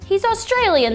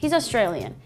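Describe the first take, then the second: First: It is said in a put-on Australian accent. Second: It is said in the speaker's usual accent.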